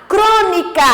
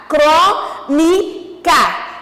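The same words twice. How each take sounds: First: Said in the usual way. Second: "Crônica" very slowly in three pieces, "cró, ni, ca"; syllable by syllable. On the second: Shown as a demonstration. Teacher showing proparoxítonas to pupils, "Crônica" slowly syllable by syllable. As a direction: split "Crônica" with a pause after each syllable. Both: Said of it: "o cró como tônica".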